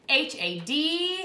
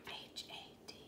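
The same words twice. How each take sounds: First: It is said in a normal voice. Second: It is said in a whisper.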